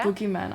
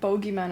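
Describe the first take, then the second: First: The first vowel sounds like 'goo'. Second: The first vowel sounds like 'go'. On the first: This is how the speaker would say it. "I would say boogeyman" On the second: Someone else said it this way. "She said bogeyman"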